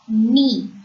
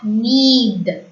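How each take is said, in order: First: The word ends on the vowel, no d sound. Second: The word ends with an audible d sound. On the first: The speaker calls it right. "is pronounced as ni" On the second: The speaker calls it wrong. "and not need"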